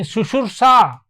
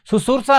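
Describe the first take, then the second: First: शुश्रूषा said with "शु" and a long "श्रू"; the right way, शुश्रूषा with sh sounds; teacher showing the correct form, शुश्रूषा with श; correct pronunciation. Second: शुश्रूषा said as "सुसुर्सा", plain s sounds; the wrong way, शुश्रूषा with s for श; teacher showing the error, शुश्रूषा with plain स; wrong pronunciation. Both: Shown as a demonstration. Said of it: "शुश्रूषा नहीं".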